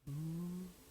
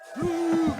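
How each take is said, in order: First: It is said softly and quietly. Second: It is said loudly and heartily.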